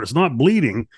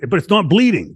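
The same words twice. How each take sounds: First: Said in the usual way. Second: "bleeding" punched higher and louder; stressed not bleeding. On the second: Real, not acted. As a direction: lean hard on "bleeding", amazed. Stressing the odd detail.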